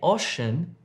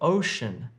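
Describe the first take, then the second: First: The o is a short vowel, as in hop. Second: The o is a long gliding oh vowel. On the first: The speaker calls it wrong. "Don't say ocean" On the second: The speaker calls it right. "if you're trying to say ocean"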